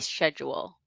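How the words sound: It is said the British way. "adopt the British of some other words"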